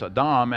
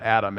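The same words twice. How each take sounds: First: "Adam" as uh-DAHM, stressed on the second syllable; Hebrew pronunciation. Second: Said in the usual way. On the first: Shown as a demonstration. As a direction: say "Adam" the Hebrew way, with a long AH at the end. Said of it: "It's not Adam". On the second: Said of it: "how you pronounce it in Hebrew".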